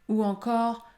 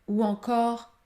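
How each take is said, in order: No difference in how they are said.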